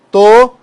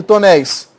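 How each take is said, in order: First: "Tonéis" broken as to, néis, first part high; syllable by syllable. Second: Said in the usual way. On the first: Shown as a demonstration. Teacher dividing an example word, syllable by syllable. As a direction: punch "to", pause, then say "néis". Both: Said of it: "Olha aqui".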